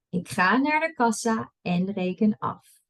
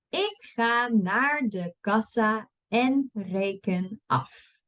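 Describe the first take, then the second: First: It is read at a fast pace. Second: It is read at a slow pace. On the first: "and then I'll read it fast" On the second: "I'll read it slow first"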